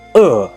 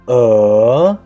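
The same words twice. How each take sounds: First: The pitch falls sharply from high to low. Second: The pitch rises from mid to high. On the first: "Last tone, uh" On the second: "The second tone is uh"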